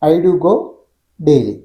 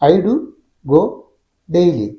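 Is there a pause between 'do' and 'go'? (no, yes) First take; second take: no; yes. First: 'I do go' together, one pause before 'daily'. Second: Pauses come after 'do' and after 'go'. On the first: "ഐ ഡു ഗോ ഒരുമിച്ച് പറഞ്ഞിട്ട് ചെറിയ gap, പിന്നെ daily" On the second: "ഐ ഡു ഒരുമിച്ച് പറഞ്ഞതിന് ശേഷം gap, പിന്നെ ഗോ, വീണ്ടും ചെറിയ ഗ്യാപ്പ്, അതിനുശേഷം ഡെയിലി"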